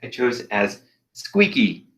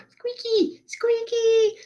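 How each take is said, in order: First: Said in the usual way. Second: Very high, slow squeaky character voice; tiny squeaky improv character voice. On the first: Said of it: "voice I chose as". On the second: Shown as a demonstration. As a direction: squeak it out way up high like a cartoon mouse.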